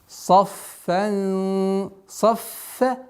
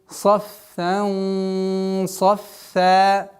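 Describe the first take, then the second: The two takes are said the same way.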